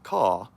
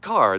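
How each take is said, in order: First: The final r sound is dropped entirely. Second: The final r sound is clearly pronounced. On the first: The speaker calls it wrong. "not caw" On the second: The speaker calls it right. "English is actually rhotic. it should be car"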